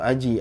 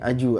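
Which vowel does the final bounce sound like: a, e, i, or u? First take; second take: i; u. First: The final bounce sounds like an i vowel. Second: The final bounce sounds like a u vowel. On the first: "atau aji, aji" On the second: "aju, aju enggak boleh"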